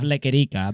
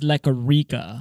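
First: The name is said with a Spanish accent. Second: The name is said with an American English accent. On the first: This is the original form of the name. "instead of Lequerica" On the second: This is a simplified version of the name. "she says Lequerica"

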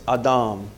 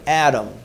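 First: The name is said with Hebrew pronunciation. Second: The name is said with English pronunciation.

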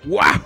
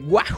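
First: It is shouted in an imitation of Wario. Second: It is shouted in the speaker's own voice.

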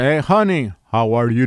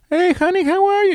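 First: The voice is forced low and deep. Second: The voice is high-pitched and squeaky. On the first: The caller sounds manly. The speaker calls it right. "You must say" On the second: The caller sounds unmanly. The speaker calls it wrong. "say if you're talking like"

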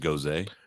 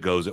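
First: The word gets a fancier, more refined pronunciation. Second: The word gets its plain, everyday pronunciation. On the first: "if you want to be fancy, call it a goze" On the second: "Guess it's goza"

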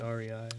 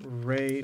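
First: The name is said as three letters. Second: The name is said as one syllable. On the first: The speaker calls it right. "or do you say REI?" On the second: The speaker calls it wrong. "is it Ray"

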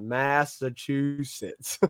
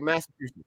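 First: The word is said slowly and drawn out. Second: The word is said short and quick. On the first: The speaker calls it wrong. "do you have to kind of draw it out? Like Massachusetts" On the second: The speaker calls it right. "is it more quick like that"

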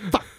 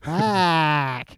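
First: The vowel is almost gone, clipped very short. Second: The vowel sounds like an a sound. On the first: "has no U's" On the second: "Sometimes there's A's"

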